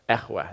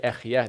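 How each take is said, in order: First: It is said in the older way. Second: It is said in the modern way. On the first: This is the oldest Hebrew version of the word. "they would say echweh. This is like the oldest kind of Hebrew version of this word" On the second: This is how it is written in Hebrew today. "they wouldn't say ech yeh"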